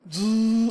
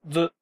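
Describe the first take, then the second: First: The sound is held long and drawn out. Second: The sound is short, with a tongue flick. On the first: "ずーっと伸ばすことができます" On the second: "舌を軽く上顎に、接して弾くように発音する"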